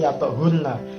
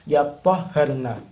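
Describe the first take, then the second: First: The middle h sound is short and single. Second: The middle h sound is lengthened and doubled. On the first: "sesuai dengan teksnya" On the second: "melafazkannya dengan cara yatahharna"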